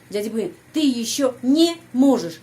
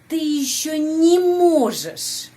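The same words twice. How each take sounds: First: "не" cut off from "можешь" with a break; split не, foreigner's habit. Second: "не можешь" joined smoothly, much higher and louder, slow; connected не, correct take. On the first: Teacher imitates the foreigners' broken version. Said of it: "orang asing biasanya pisahkan". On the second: Teacher gives the right linked version after the wrong one. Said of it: "Itu harus sambungkan". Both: Shown as a demonstration.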